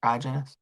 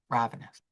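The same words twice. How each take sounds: First: Ravenous said as "radge-en-us" with a soft j sound; Ravenous as "rajenous", quietly testing it; unsure pronunciation. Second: Ravenous said as "rav-en-us" with a clear v; Ravenous, softly, with the v sound; corrected pronunciation. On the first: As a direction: try Ravenous with a j in the middle. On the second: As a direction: settle on Ravenous with a proper v. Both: Shown as a demonstration. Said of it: "is that a word?".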